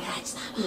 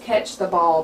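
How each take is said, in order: First: It is said in a put-on imitated voice. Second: It is said in the speaker's ordinary voice.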